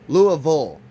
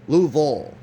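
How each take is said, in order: Both takes have the same delivery.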